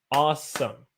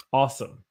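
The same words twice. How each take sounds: First: "awesome" broken into two beats, awe-some; split into syllables. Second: Said in the usual way. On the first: Shown as a demonstration. Teacher counting syllables for students, "awesome" split in two. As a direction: say "awesome" one clapped syllable at a time. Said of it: "That's two syllables". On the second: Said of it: "this is a syllable when I clap".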